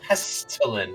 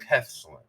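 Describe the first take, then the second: First: The T in the middle is clearly pronounced. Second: A glottal stop replaces the T in the middle. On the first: "You gotta say the T" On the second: "It's sort of like the the impression of a T"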